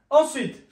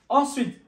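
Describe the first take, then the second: The two takes are said the same way.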